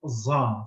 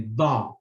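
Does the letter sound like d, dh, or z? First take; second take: z; d. First: It is said with a z-like sound. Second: It is said with a d-like sound. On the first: This is how Egyptians say it. "the Egyptians would say it's just za, something like Z plus something" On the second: This is how Palestinians say it. "They say da, da, something closer to the D"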